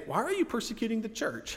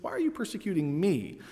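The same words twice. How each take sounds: First: "Why are you persecuting the church?" lifted high, as the line Jesus never said; "the church" asked high as the version to set aside; the wrong version. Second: Said in the usual way. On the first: Shown as a demonstration. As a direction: pitch the rejected wording up. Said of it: "Jesus doesn't say". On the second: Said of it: "He says".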